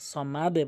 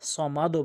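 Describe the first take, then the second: First: The final d echoes with an 'e' sound. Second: The final d echoes with an 'o' sound. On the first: The speaker calls it right. "সমাদে বলতে হবে" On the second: The speaker calls it wrong. "সমাদও বলবেন না"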